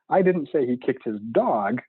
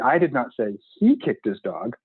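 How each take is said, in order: First: The stress falls on the word dog. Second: The stress falls on the word he. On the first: He kicked something other than the dog. "He clearly kicked something. It just wasn't that" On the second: Someone else kicked the dog. "the sentence means that dog totally got kicked, but it just wasn't by him"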